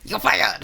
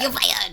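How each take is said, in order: First: The put-on voice is deep and low-pitched. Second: The put-on voice is higher-pitched.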